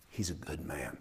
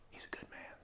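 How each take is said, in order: First: Said in the usual way. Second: Breathy murmured whisper. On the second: Retold or imitated. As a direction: whisper it so nobody overhears. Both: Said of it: "so they kind of whisper it".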